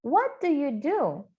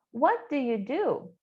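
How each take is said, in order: First: Slow demo. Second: Said in the usual way. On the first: Shown as a demonstration. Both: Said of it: "let's repeat".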